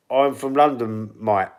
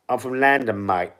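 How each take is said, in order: First: Said in the usual way. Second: Put-on London accent, "London" said as "Landan"; mocked London accent. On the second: Streamer echoing a viewer mocking his accent, exaggerated London accent. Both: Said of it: "take the piss out of me accent".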